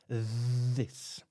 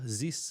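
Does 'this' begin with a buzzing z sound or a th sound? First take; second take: th sound; z sound. First: It begins with a th sound. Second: It begins with a z sound. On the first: The speaker calls it right. "the tongue always has to be out of your mouth" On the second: The speaker calls it wrong. "you might be saying this. Z"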